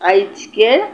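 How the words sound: It is said in a regional dialect form. The speaker calls it wrong. "যেসব শব্দ প্রমিত হয়নি"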